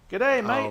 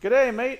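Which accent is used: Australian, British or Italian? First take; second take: Australian; British. First: It is said in an Australian accent. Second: It is said in a British accent.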